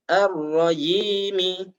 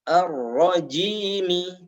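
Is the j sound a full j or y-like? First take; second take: y-like; full j. First: The j is softened toward a y sound. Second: The j is a firm, full j sound. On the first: The speaker calls it wrong. "menyamarkan suaranya sehingga mirip ya" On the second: The speaker calls it right.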